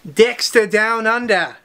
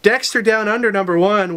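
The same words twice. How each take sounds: First: Slow, put-on Australian accent on the title; Australian twang on Dexter Down Under. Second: A lightly cheesy, hammed-up promo read in the own accent; mock-cheesy announcer read, no Australian accent; cheesy version. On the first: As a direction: say the title like an Aussie, drawn out. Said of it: "That's my Australian accent". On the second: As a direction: sell the title like a corny ad, only a touch. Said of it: "now let's do the cheesy version". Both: Shown as a demonstration.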